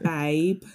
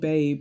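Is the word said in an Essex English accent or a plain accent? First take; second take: Essex English; plain. First: It is said in an Essex English accent. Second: It is said in a plain accent.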